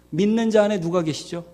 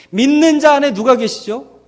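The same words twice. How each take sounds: First: Breathy whispered question. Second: Said in the usual way. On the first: Shown as a demonstration. Preacher whispering his question to the congregation, hushed.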